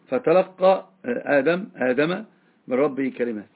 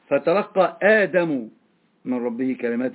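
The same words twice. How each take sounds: First: Adam ends with an 'a' vowel. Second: Adam ends with a 'u' vowel. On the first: The words are what reached Adam. "قرأت بالنصف أيضا" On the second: Adam is the one who received the words. "فاعل مرفوع بالضمة الظاهرة"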